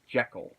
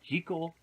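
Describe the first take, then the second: First: The name is said the more common way. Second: The name is said the less common way. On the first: This is the pronunciation most people use today. "the more commonly used Jekyll" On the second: This is the original pronunciation of the name. "go from Jekyll"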